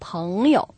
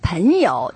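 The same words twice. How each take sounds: First: The first syllable ends in a back nasal. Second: The first syllable ends in a front nasal. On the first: The speaker calls it right. "读的是后鼻音，读的时候把口张开，舌头退后一点" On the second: The speaker calls it wrong. "很多人还读成了朋友"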